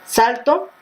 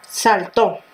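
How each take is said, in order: First: "Salto" stressed on SAL, unstressed final o; stress on first syllable. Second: "saltó" stressed on the final TÓ; stress on last syllable. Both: Shown as a demonstration. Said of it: "llevará o no acento".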